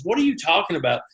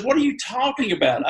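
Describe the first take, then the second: First: Said in the usual way. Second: Higher incredulous question. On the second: Retold or imitated. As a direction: pitch leaps on the second try. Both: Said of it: "She goes".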